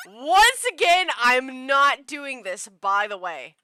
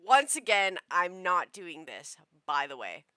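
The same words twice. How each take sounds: First: Emphatic refusal. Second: Said in the usual way. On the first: Real, not acted. Player refusing to voice the scene, slow loud declaration. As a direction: announce it loudly, stretched out. Repeats refusal loudly over game.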